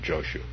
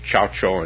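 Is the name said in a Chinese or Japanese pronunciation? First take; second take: Japanese; Chinese. First: The name is said with a Japanese pronunciation. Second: The name is said with a Chinese pronunciation. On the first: "now I'm falling back on the Japanese pronunciation" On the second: "I'm trying to do the Chinese pronunciation, which is actually correct"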